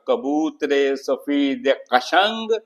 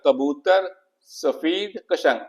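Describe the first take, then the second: First: The words are linked by an added 'e' vowel. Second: The words are said without a linking 'e' vowel. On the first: The speaker calls it right. "लेकिन जब मैं कहता" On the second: The speaker calls it wrong. "कोई माना नहीं, कोई रिदम नहीं"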